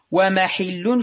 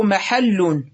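First: ومحل as wa-mahillun, i on the ha; irregular kasra form. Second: محل as mahallun, a on the ha; fatha form. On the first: Teacher giving the irregular noun, ومحل said wa-mahillun. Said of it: "شذوذا". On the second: Teacher giving the regular noun, محل said mahallun. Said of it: "بالفتح قياسا". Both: Shown as a demonstration.

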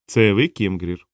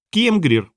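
First: Said in the usual way. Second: High little creature squeak; thin squeaky voice. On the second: A narrator's reading. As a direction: pipe the name up high. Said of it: "тоненький пискливий голосок".

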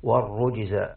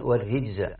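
First: والرجز with an u after the r, "war-rujza"; damma on the ra. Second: والرجز with an i after the r, "war-rijza"; kasra on the ra. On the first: Teacher showing Hafs's reading, والرجز said "war-rujza". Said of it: "هذه قراءة عاصم برواية حفص". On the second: Teacher showing the other readers' way, والرجز said "war-rijza". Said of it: "الرجز بكسر الراء". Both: Shown as a demonstration.

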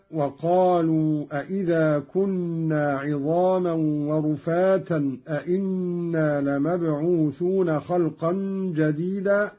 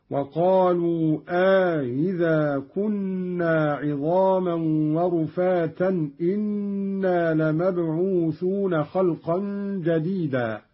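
First: Said in the usual way. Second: "أإذا" with two hamzas, "إنا" with just one; question then statement. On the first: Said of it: "استفهام". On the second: Shown as a demonstration. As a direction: recite "أإذا" as a-idha with softened second hamza, "إنا" as inna. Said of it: "أي بهمزة واحدة".

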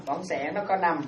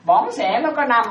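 First: Said in the usual way. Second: "bỏng sẻ" said slowly and loudly; slow emphatic statement. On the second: Shown as a demonstration. Monk teaching the five kinds of stinginess, slow and loud. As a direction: spell it out loud and slow for the listeners. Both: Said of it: "đúng không?".

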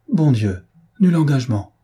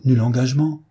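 First: Sudden exclamation of dismay; shocked exclamation. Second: Said in the usual way. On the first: Acted. Elinor learning there was no engagement, shocked exclamation. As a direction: exclaim it, taken aback. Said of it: "s'écria Elinor". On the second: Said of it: "dit Maria".

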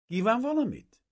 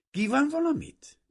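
First: Put-on high young woman's voice, falling at the end; girl's polite question. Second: "valamit" said louder and higher, as if to a deaf man; louder repeat. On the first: Young woman asking a stranger at the fence, high and polite. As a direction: ask it as the young lady would. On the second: Girl repeating for a man she thinks is deaf, louder. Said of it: "ismételte meg a leány hangosabban". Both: A narrator's reading.

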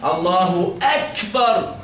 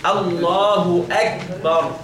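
First: Slow "أكبر" with a forced puff after the ك; overdone hams. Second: Slow "الله أكبر" with a tiny breath after the ك; light hams. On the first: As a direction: exaggerate the breathy release of k in "أكبر". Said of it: "تتعسف وتتكلف ونطق الكاف وتقول فيها همس". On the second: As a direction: model "أكبر" with a barely audible release of the k. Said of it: "خفيفة جدًا يعني". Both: Shown as a demonstration.

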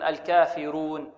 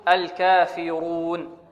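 First: "الكافرون" slowly, with a thin ر; wrongly light R. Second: Very slow "الكافرون" with a thick, full ر; heavy R. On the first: Retold or imitated. Teacher quoting many students' error, light thinned ر in "الكافرون". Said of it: "تعتبر مرققة". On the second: Shown as a demonstration. Teacher giving the correct form, heavy ر in "الكافرون". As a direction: draw out "الكافرون", making the ر emphatic. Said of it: "أن نفخم الراء".

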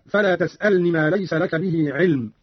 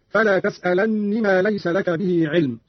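First: Said in the usual way. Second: "تسألن" with a held, doubled n; doubled noon. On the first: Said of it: "قرأ قالون بتشديد النون". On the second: Shown as a demonstration. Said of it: "بتشديد النون هكذا". ("تسألن" بتشديد النون)

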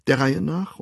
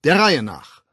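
First: Said in the usual way. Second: Loud, raised-pitch order; commanding. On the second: A narrator's reading. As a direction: call it out to a crowd. Official orders a jostling crowd. (laut befehlend)

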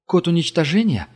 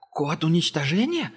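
First: Firm probing question; Gerda asking firmly. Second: High, startled captive echo; frightened echo. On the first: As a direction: pin him down with it. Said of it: "уточнила Герда". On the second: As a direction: repeat it in fright. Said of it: "испугался Ангел". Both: A narrator's reading.

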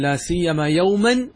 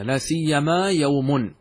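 First: "يوما" read with the accusative ending, yawman, slightly slow. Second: "يوم" read with the nominative ending, yawmun, slowly. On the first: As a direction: end "لا سيما يوما" on an accusative "يوما". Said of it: "هل يجوز أن أقول". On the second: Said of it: "نقرأها هكذا". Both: Shown as a demonstration.

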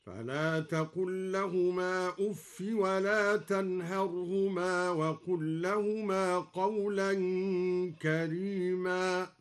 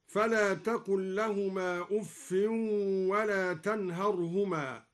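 First: Slow chant, أف as uffi with no nunation; أف without tanwin. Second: Said in the usual way. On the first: Shown as a demonstration. Teacher chants al-Duri's reading, أف without tanwin. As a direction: recite أف as uffi, no n. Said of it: "يدل على التضجر والتأفف هكذا". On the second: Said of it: "قرأ الدوري بحذف التنوين".

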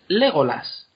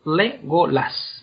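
First: "Legolas" stressed on the first syllable. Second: "Legolas" very slowly split as LE, go, las; syllable by syllable. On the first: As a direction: say "Legolas" as LE-go-las, in one go. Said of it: "la tercera sílaba empezando por el final". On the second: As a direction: spell out "Legolas" in slow separate syllables. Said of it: "el acento lo lleve la tercera sílaba". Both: Shown as a demonstration.

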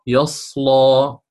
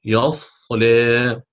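First: "يصلى" drawn out with an open a; slow recitation of "يصلى" ending open; first reading at the pause; recited with fatha at the pause. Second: "يصلى" drawn out, its ending leaning slightly toward e; slow recitation with a light leaning vowel; second reading at the pause; recited with taqlil at the pause. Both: Shown as a demonstration. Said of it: "سنقرأ".

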